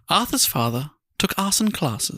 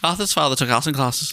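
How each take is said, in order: First: It is said at a slower pace. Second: It is said at a faster pace.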